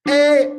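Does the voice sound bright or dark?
bright. The voice sounds bright and thin. The speaker calls it wrong. "This is my voice without larynx dampening"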